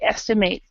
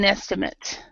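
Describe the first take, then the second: First: The last syllable sounds like 'mate'. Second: The last syllable sounds like 'mit'. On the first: It is used as a verb. "when it's the verb we say estimate" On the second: It is used as a noun. "as an a noun, it would be an estimate"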